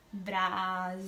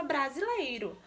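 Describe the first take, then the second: First: "brasileiro" sounded out syllable by syllable; split into syllables. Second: Said in the usual way. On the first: Shown as a demonstration. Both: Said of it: "ao fazer a separação silábica".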